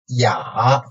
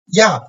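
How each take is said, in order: First: The pitch dips low, then rises slightly. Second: The pitch falls sharply from high to low.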